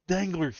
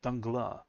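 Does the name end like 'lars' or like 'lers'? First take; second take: lers; lars. First: The last syllable sounds like English 'lers'. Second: The last syllable has an open 'ar' vowel. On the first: The speaker calls it wrong. "the English cast call him Danglers" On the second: The speaker calls it right. "it's the proper way to say it"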